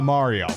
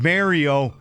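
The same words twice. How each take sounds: First: The name is said with a non-Canadian pronunciation. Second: The name is said with a Canadian pronunciation. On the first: The speaker is not Canadian. "and not Mario" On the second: The speaker is Canadian. "that's how you know you're dealing with the Canadian. If they pronounced it Mario"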